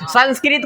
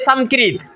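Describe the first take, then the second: First: The first syllable ends with an n-like nasal. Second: The first syllable ends with a clear m sound. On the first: The speaker calls it right. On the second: The speaker calls it wrong.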